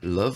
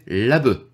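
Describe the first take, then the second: First: It is said with an English pronunciation. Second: It is said with a Japanese pronunciation. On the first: "love anglais" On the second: "c'est prononcé à la japonaise"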